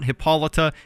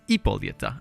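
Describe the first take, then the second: First: The name begins with an h sound. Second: The name begins directly with a vowel. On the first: The speaker calls it wrong. "it's not Hippolyta" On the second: The speaker calls it right. "it's Ippolyta, because she is Greek"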